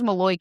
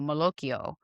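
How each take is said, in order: First: Clipped New Jersey pronunciation, final vowel dropped. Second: Full Italian pronunciation, ending with a vowel. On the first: The speaker calls it wrong. "It's only pronounced Maloik in New Jersey" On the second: The speaker calls it right. "which is how it's pronounced in Italian"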